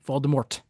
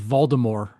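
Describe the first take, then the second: First: The final T is clearly sounded. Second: The final T is silent. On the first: The speaker calls it right. "there's a T" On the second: The speaker calls it wrong. "no T, like silent T"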